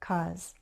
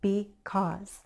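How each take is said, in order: First: The word is shortened to a single syllable. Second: The word is said with two full syllables. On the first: "You may hear cause" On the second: "two syllables"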